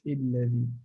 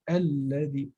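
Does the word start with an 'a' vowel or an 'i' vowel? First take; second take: i vowel; a vowel. First: The word starts with an 'i' vowel. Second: The word starts with an 'a' vowel. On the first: The speaker calls it wrong. "not الذي" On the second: The speaker calls it right. "it's usually الذي"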